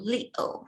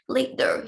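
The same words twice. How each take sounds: First: The middle consonant is a glottal stop. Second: The middle consonant is a full t.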